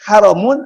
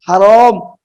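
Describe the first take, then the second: First: The vowel in the word is short. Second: The vowel in the word is long. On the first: It means forbidden. "kalau ditulisnya pendek" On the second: It means noble. "kalau dibacanya panjang sedikit pakai ro"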